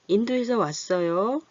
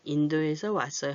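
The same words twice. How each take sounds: First: The pitch rises at the end. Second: The pitch falls at the end. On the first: It is asked as a question. "이렇게 올려서 물어보고 있죠" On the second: It is given as an answer. "이렇게 내려주지요"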